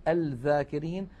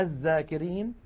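First: الذاكرين said al-dhākirīn, with audible l; pronounced lam. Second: الذاكرين said adh-dhākirīn, doubled dh; assimilated lam. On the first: Teacher showing the error, الذاكرين as al-dhākirīn. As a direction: sound the l before dh in الذاكرين. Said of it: "ولا نقول". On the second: Teacher showing correct form, الذاكرين as adh-dhākirīn. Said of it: "ولا نقول الذاكرين". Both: Shown as a demonstration.

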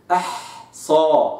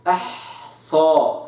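First: أحصى very slow, ح flowing into ص; linked ha and sad. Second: أحصى slow, giving ح its full breath; soft ha. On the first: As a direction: glide ح into ص in أحصى. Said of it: "لم أفصل صوت الحاء عن صوت الصاد". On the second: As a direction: give the ح in أحصى its time. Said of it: "وإنما أعطيت الحاء زمانها من الرخاوة". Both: Shown as a demonstration. Teacher showing ح joined to ص, very slow أحصى.

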